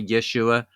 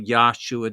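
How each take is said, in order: First: The first vowel is an eh sound. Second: The first vowel is an ah sound. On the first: "Other people say Yeshua, very small marginal change between a ah sound or a e sound" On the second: "his name means salvation of Yah, so Yahshua does make sense uh, as the correct pronunciation"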